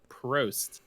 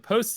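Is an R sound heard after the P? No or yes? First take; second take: yes; no. First: The word is said with an R sound. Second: The word is said without an R sound. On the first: The speaker calls it right. "as the R is not silent" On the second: The speaker calls it wrong. "we're no longer going with the post system"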